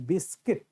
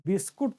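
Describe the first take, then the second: First: बिस्किट said with a short i, bis-kit; correct pronunciation. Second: बिस्कुट said with a u sound, the common mistake; wrong pronunciation. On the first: Teacher to students giving the right form, बिस्किट with i. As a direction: say बिस्किट properly, with an i in the second part. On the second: Teacher to students showing the wrong way, बिस्कुट with u. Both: Shown as a demonstration. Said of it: "और बिस्कुट नहीं, बिस्किट".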